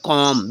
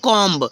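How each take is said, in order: First: The final b is silent. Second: The final b is pronounced. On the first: The speaker calls it right. "तो हो जाएगा कॉम, बी silent होगी" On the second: The speaker calls it wrong. "नहीं कॉम्ब"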